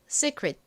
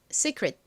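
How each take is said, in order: First: The second vowel is a clear ee sound. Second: The second vowel is a clear ee sound.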